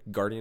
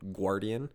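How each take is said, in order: First: The U is silent, starting with a hard g. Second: The U is sounded as a w after g. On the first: The speaker calls it right. "some words with a silent U" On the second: The speaker calls it wrong. "is not"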